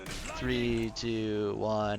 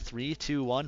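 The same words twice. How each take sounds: First: The countdown is slow and drawn out. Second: The countdown is quick and urgent. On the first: The teammate is left unprepared. The speaker calls it wrong. "this big wait and then like" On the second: The teammate is pushed to be ready to act. The speaker calls it right. "If you put more urgency on it"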